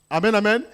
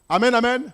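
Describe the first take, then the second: The two takes are said the same way.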